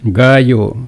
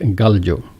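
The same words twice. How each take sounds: First: The double L sounds like a Y. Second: The double L sounds like an L. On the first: "Gallo is what people will say" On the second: "it should be pronounced like gallo"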